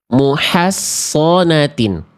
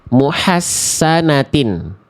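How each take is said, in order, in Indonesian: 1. Ini memakai s yang tebal dengan vokal yang lebih gelap. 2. Ini memakai bunyi s tipis biasa. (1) "Tinggal naikin lidah dalam" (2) "Shortnya dibaca jadi sin dulu aja"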